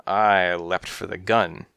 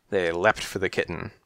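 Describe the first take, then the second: First: I stressed, slow and firm; slow firm narration with I punched. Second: Said in the usual way. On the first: A narrator's reading. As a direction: lean on I against they.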